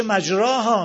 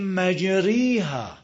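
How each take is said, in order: First: "مجراها" with a long open a after r; as written. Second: "مجریها" drawn out with a long ee after r; major imala. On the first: Teacher reads the written form, "مجراها" with full a. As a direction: say "مجراها" loud, as spelt, "majraaha". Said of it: "تو قرآن نوشته". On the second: Teacher shows how it is recited, "مجریها" with full ee. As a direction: recite "مجریها" slowly as "majreeha". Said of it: "این اماله کبراست". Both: Shown as a demonstration.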